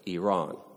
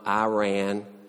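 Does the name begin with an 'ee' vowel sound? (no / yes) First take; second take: yes; no. First: The first vowel is an 'ee' sound. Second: The first vowel is not an 'ee' sound. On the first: The speaker calls it right. "It's like E-E-E-Ron, O-R-O-N" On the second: The speaker calls it wrong. "It's not Iran"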